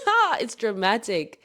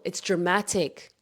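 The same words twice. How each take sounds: First: Higher, laughing "ha, it's dramatic"; delighted laugh, then "dramatic" said slowly; laughing repeat. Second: "dramatic" stretched slowly, each syllable savored; savoring the word. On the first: Real, not acted. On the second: Shown as a demonstration. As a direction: let "dramatic" roll out slowly.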